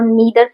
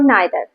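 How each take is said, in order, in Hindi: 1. पहला स्वर 'ee' ध्वनि है। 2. पहला स्वर 'eye' ध्वनि है। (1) "अमेरिकन इंग्लिश में इसे ईदर और नीदर" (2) "ब्रिटिश इंग्लिश में आइदर और नाइदर"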